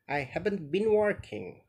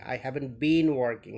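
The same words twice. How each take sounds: First: The word 'been' is short and unstressed. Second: The word 'been' is long and stressed. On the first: The speaker calls it right. "but I haven't been working" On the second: The speaker calls it wrong. "Not not this way"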